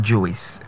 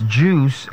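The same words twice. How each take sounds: First: "juice" in two syllables, joo-is; mispronounced juice. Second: "juice" as one syllable with long oo; correct pronunciation. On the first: Coach showing what not to say, mispronunciation. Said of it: "and not juice". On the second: Coach giving the right form, correct pronunciation. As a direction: say "juice" as joos. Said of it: "It's juice and not juice". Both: Shown as a demonstration.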